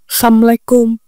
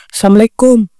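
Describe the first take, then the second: The two takes are said the same way.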